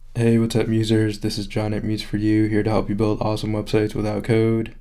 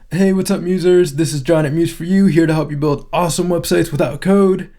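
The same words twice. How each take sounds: First: It is said in a calmer, toned-down way. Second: It is said with exaggerated, over-the-top energy.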